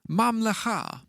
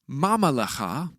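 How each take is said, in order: First: The two m sounds meet with no vowel between. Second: A short vowel is heard between the m sounds. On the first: The speaker calls it right. "the second mem is silent, closing the syllable" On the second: The speaker calls it wrong. "it's not pronounced mamalecha"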